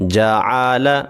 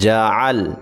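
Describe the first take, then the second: First: The word is read in full with a final vowel. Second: The word stops on the final consonant. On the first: "अब इसको मुकम्मल पढ़ेंगे" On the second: "रुकना कैसे है"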